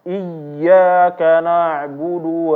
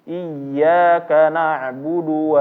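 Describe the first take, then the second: First: The doubled y is pressed far too hard. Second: The doubled y is pressed with a slight rise. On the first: The speaker calls it wrong. "ini berlebihan ya" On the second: The speaker calls it right. "Yang betul adalah dia ditekan ... suaranya agak naik sedikit"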